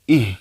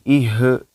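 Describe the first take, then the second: First: The sound is pressed and held without bouncing. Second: The sound bounces off with an added vowel. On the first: The speaker calls it right. "ditekan ditahan" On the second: The speaker calls it wrong. "jangan sampai memantul"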